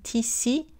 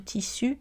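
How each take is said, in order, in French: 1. La voyelle finale n'est pas arrondie, comme ee. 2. La voyelle finale est une voyelle antérieure arrondie. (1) "quand on enlève l'arrondissement, U devient I" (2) "ici, on a les voyelles antérieures arrondies"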